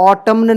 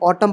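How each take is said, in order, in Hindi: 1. अंतिम n ध्वनि उच्चारित होती है। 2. अंतिम n ध्वनि मौन रहती है। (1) "नहीं" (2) "एन साइलेंट रहेगा"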